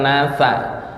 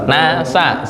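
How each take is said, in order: First: The s sound is held back tightly. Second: The s sound is released freely. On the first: The speaker calls it wrong. "bukan nasa. Kalau sa tuh kayak tertahan nih" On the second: The speaker calls it right. "sa lepas ya"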